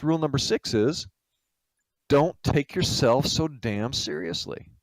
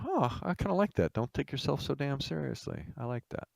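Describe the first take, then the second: First: Deliberate pronouncement. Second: Soft, pensive echo to oneself; musing approval. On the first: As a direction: lay it down word by word. Minister delivers the rule. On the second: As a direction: mull it over quietly, pleasantly struck. Guest muses over the rule. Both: Acted.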